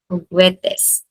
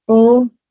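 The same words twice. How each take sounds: First: Said in the usual way. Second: "Ugwetes" broken into U, gwe, tes with long pauses; "Ugwetes" in three separate beats; syllable by syllable. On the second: Shown as a demonstration. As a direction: say "Ugwetes" one isolated syllable at a time. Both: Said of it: "syllable before the last".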